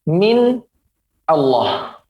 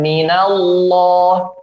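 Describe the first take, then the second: First: The words are said separately without linking. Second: The words are merged with a linking vowel. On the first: This is the underlying original form. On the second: This is the connected recited form.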